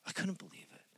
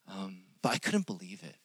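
First: Hushed, breathy repeat of the line; whisper. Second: Said in the usual way. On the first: Retold or imitated. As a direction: say it again under your breath, unvoiced. Teacher's quote repeated twice.

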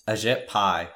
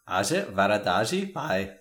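First: Said in the usual way. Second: Slow, careful Indian accent on Ajit Varadaji Pai; name spoken carefully in an Indian accent. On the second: Shown as a demonstration. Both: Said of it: "Can you say it with the accent?".

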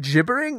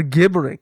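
First: "gibbering" with a j sound; soft-g gibbering. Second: "gibbering" with g as in "give"; hard-g gibbering. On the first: Co-host checking how the word is said, "gibbering" with soft g. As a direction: start "gibbering" like "jib". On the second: Co-host offering the other pronunciation, "gibbering" with hard g. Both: Shown as a demonstration. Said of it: "Is it gibbering or gibbering?".

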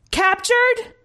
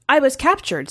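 First: Very high, altered commander voice; incredulous commander. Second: Slightly raised, lightly voiced soldier; soldier reporting. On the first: Commander questioning the returned soldier, incredulous. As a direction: throw it back as a high, disbelieving question. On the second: Soldier explaining to the commander, lightly voiced report. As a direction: report it to a superior, a little high. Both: A narrator's reading.

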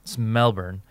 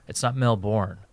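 First: "Melbourne" with a swallowed "bn" ending; local pronunciation. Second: "Melbourne" with a full "born" ending; wrong pronunciation. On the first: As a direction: say Melbourne as MEL-bn, second syllable reduced. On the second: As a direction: say Melbourne as Mel-BORN, sounding the second syllable. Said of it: "It's Melbourne in Australia". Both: Shown as a demonstration.

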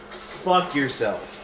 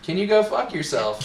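First: Fuck yourself drawn out very slowly, each word stressed; slow, deliberate insult. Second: Calm deadpan retort, mildly higher; deadpan insult. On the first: Shown as a demonstration. Friend shows how to say the insult, slow and deliberate. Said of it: "you ready for this?". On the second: Retold or imitated. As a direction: toss it off nonchalantly. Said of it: "with the most nonchalant look".

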